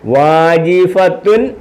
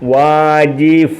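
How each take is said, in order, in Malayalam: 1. വാക്ക് പൂർണ്ണമായ '-tun' അക്ഷരത്തിലാണ് അവസാനിക്കുന്നത്. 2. വാക്ക് അവസാനം '-a' യിൽ ചെറുതായി നിൽക്കുന്നു. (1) "തൻതിന്തുൻ എന്ന് വായിക്കത്തില്ല" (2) "വാജിഫ എന്നേ വായിക്കത്തുള്ളൂ"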